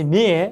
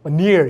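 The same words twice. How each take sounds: First: The final r sound is dropped. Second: The final r sound is pronounced.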